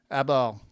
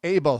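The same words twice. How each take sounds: First: "Abel" said AB-ul, short a as in cab; "Abel" with first syllable like "cab"; mispronounced name. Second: "Abel" said AY-bul, like the word able; "Abel" with long A, as in day; corrected name pronunciation. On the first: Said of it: "It was close". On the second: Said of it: "It's Abel". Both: Real, not acted.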